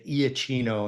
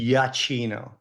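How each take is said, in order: First: The name is said with an Americanized opening. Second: The name begins with an Italian 'ya' sound. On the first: The speaker calls it wrong. "a lot of people would say Iachino, and that's uh, Americanizing it" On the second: The speaker calls it right. "where it's actually Yachino"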